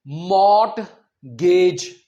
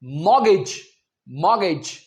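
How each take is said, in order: First: मॉर्टगेज drawn out with a sounded t; slow मॉर्टगेज, mort-gage, t pronounced; wrong reading. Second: मॉर्गेज said mor-gej, silent t; मॉर्गेज with the t dropped; correct pronunciation. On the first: Teacher shows the common mistake: मॉर्टगेज with t. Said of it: "ये मॉर्टगेज नहीं होता". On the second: Teacher gives right form: मॉर्गेज, silent t. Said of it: "इसका सही pronunciation होता है". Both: Shown as a demonstration.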